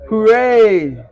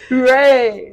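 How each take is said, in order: First: Mock cheer. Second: Mock high cheer. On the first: Mocking [name] quote. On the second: Repeating the quote.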